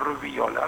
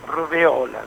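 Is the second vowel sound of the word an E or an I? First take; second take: I; E. First: The word is said with an I sound: rubiola. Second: The word is said with an E sound: rubéola. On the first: The speaker calls it wrong. "no rubiola" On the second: The speaker calls it right. "porque es con E"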